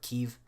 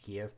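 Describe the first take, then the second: First: The name is said in the Ukrainian form. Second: The name is said in the older, common form. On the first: The speaker calls it right. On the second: The speaker calls it wrong.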